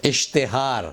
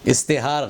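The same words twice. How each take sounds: First: "اشتہار" with sh, as ishtehaar; careful ishtehaar for "اشتہار"; correct sh sound. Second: "استہار" with s, as istehaar; mispronounced s for sh. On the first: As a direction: say "اشتہار" with a clear sh. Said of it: "صحیح تلفظ". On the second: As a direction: say "استہار" with s instead of sh. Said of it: "غلط تلفظ". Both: Shown as a demonstration.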